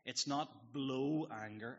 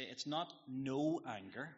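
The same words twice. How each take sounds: First: "blow" stressed, slow, rising. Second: "no" stressed, slow, rising. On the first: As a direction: hit "blow" slowly to set it apart. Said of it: "as in blowing up". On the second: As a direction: lean on "no" slowly as the wrong word. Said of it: "as Tim Keller will say". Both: Shown as a demonstration.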